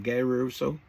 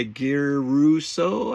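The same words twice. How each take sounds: First: Said in the usual way. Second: Slow Italian-style accent on "Guy Russo" with a rolled r; mock Italian accent. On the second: Shown as a demonstration. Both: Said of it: "Why do I have to say it with an accent?".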